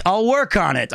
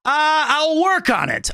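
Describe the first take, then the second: First: Said in the usual way. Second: High, slow put-on voice; impression attempt. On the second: Shown as a demonstration. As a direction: try the voice again slowly. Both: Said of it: "I need more practice".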